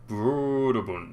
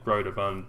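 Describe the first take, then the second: First: The name is said in an exaggerated foreign accent. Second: The name is said plainly, in an ordinary accent. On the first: The slashed O suggests a foreign pronunciation. "supposed to be pronounced in a silly accent" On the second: The company is American, so an ordinary reading fits. "it's probably just Broderbund because it's an American company"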